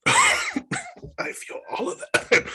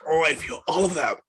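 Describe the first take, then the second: First: High strained cry through burning mouth; pained wail. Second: Said in the usual way. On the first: Real, not acted. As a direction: squeal it out while your mouth burns.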